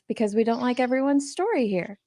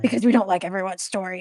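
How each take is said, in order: First: It is read in a calm, neutral tone. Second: It is read in a harsh, aggressive tone. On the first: "I could read it as" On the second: "you could be really aggressive with it"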